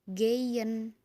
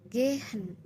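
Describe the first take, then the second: First: The middle consonant is a y sound. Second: The middle consonant is an h sound. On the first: "biasanya orang-orang tuh melafalkan kata gehen itu jadi geyen. Jadi huruf Y loh" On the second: "ada H yang ada suaranya, jadi dibaca gitu"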